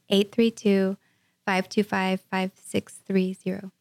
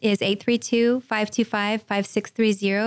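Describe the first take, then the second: First: The number is said more slowly. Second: The number is said at normal speed.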